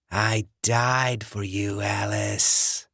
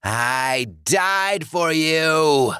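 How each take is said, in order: First: Slow, breathy rasping whisper of a corpse; undead John. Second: Much higher and louder, slow furious roar; raging undead John. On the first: Dead ex-boyfriend luring Alice, slow rasping whisper. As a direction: hiss it through the door like a dead man. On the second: Dead John raging at Alice, furious roar. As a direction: roar it in fury. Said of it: "John raged". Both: Acted.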